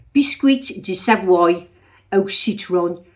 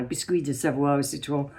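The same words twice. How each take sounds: First: Loud, slow, mock Brummie French; Brummie-accented French. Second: "Biscuit de Savoie au citron" in French pronunciation, lower; attempted proper French. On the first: Imitating Brummies in French class, hammed-up Brummie accent. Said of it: "when you're sitting next to Brummies and you're saying". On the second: Shown as a demonstration. Checking the French is right, "Biscuit de Savoie au citron" carefully Frenchified. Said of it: "I don't even know whether I've said that right now".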